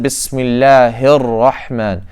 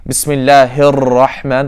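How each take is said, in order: First: "Bismillahir Rahman." slowly, the r of Rahman one light tap, no trill; correct single tap. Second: "Bismillahir Rahman" with the r in Rahman rolled; trilled wrong ra. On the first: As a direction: tap the r once, slowly and carefully. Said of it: "the correct way to pronounce it". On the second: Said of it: "that's incorrect". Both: Shown as a demonstration.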